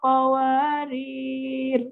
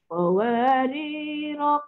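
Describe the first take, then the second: First: The word ends on the consonant 'r'. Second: The word ends in a drawn-out 'o' vowel. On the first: The reciter joins this word to the next. "Wasal pada qawariro kedua tanpa memanjangkan ... tak ada rohnya, qawarir je lah" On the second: The reciter stops on this word. "Waqaf pada qawariro pertama dengan memanjangkan sekadar dua harakat"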